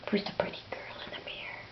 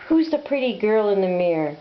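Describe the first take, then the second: First: Whisper. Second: Said in the usual way. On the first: Acted. Talking to bird at mirror.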